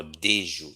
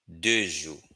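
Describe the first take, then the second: First: "des jours" with an "eh"-like vowel in "des"; Haitian Creole pronunciation. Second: Said in the usual way. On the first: Shown as a demonstration. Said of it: "Haitian Creole pronunciation". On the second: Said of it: "if you're using the exact".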